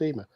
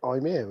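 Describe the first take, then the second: First: The name is said the way its owner says it. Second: The name sounds like the words 'I'm here'. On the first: The speaker calls it right. "but it's pronounced Ema" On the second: The speaker calls it wrong. "for years I pronounced it"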